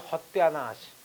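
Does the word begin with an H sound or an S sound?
H sound. The word begins with an H sound. "they will say Hotyanash"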